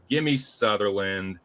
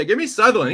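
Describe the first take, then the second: First: Said in the usual way. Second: Higher and louder, really pushing the pick; getting loud and hyped while backing the underdog; emphatic pick. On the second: Real, not acted. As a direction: give me Sutherland, said with real excitement and force.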